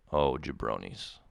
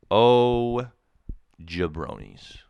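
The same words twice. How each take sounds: First: Said in the usual way. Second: Hammed-up call of "Oh" before a muttered "jabronis"; loud mock exasperation. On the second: Shown as a demonstration.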